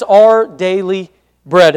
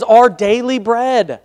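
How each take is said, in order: First: "Our Daily Bread" slow, word by word, Bread not held; measured title emphasis. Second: "Our Daily Bread" with Bread drawn out long; held-out BREAD. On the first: Preacher restating his sermon title, slowly word by word. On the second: Preacher announcing his sermon title, Bread held long. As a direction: hold on to "Bread" at the end of the title. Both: Real, not acted. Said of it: "I kinda held on to it for a minute there".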